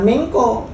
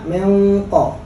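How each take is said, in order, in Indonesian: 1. Bunyi q itu tipis dan ringan. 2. Bunyi q itu tebal dan berat. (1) "bukan mengko" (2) "dibacanya mengko"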